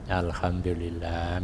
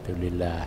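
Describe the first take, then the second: First: It is said slowly and fully, every syllable clear. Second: It is rushed and clipped, its start swallowed. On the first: The phrase is said while truly feeling its meaning. The speaker calls it right. "ambek dirasakno" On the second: The phrase is recited hastily just to reach the count. The speaker calls it wrong. "dicepetno ae sampai gak jelas"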